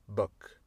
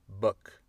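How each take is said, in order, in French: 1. La voyelle est courte et relâchée. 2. La voyelle est courte et relâchée.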